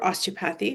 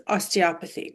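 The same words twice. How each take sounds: First: "osteopathy" as OS-tee-oh-path-ee; alternative pronunciation. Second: "osteopathy" stressed on OP, os-tee-OP-uh-thee. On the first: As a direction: say "osteopathy" with the beat up front and a full "path". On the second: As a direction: say "osteopathy" with the beat on the middle syllable, OP. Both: Shown as a demonstration. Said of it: "Doesn't matter how you say it".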